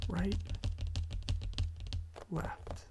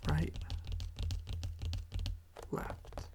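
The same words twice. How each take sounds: The two takes are said the same way.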